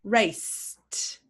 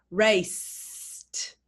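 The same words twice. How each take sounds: First: Raced with no voice at the end, a crisp t; unvoiced ending. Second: Raced drawn out, ending in an unvoiced t; slow demo of Raced for feeling the throat. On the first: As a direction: say Raced so pupils feel the vibration stop. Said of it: "Feel your vibration in your throat". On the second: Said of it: "That's why we say a t". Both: Shown as a demonstration.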